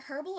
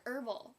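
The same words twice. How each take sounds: First: "herbal" with the initial H sounded; pronounced H. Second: "herbal" with no H sound; silent H. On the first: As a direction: start "herbal" on an audible H. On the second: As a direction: begin "herbal" straight on the vowel. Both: Shown as a demonstration. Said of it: "without the H or with the H".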